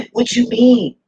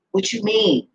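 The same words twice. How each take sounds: First: Slow, higher, louder mocking disbelief; amused outrage at the idea; incredulous laughing drawl. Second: Said in the usual way. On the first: Real, not acted.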